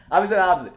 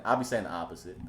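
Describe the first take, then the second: First: Higher, louder, amused repeat; laughing emphasis. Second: Said in the usual way. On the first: Real, not acted. Streamer repeats his point to viewers, amused and louder.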